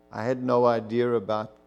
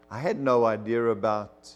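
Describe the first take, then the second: No difference in how they are said.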